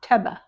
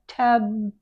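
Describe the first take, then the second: First: An extra vowel follows the b. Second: The word ends cleanly on the b. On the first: The speaker calls it wrong. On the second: The speaker calls it right.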